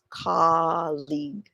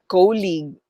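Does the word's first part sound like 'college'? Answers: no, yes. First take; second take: yes; no. First: The first part sounds like the word college. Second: The first part does not sound like college. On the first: The speaker calls it right. "it's colleague. Related siya sa word na college" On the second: The speaker calls it wrong. "It's not colleague"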